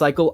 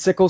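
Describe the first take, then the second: First: The first vowel is long, as in 'eye'. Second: The first vowel is short, as in 'sick'. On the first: "some people say it's cycle" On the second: "some people say it's sickle"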